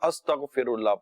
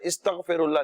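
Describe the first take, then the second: First: The word begins with an 'a' vowel. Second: The word begins with an 'i' vowel. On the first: The speaker calls it right. "अस्तगफिरुल्लाह पढ़ा जाएगा" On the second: The speaker calls it wrong. "इस्तगफिरुल्लाह नहीं पढ़ा जाएगा"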